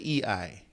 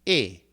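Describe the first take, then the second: First: The two vowels are said as separate sounds. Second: The two vowels merge into one gliding sound. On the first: The speaker calls it wrong. "you don't say E I" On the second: The speaker calls it right. "you just say eight, A"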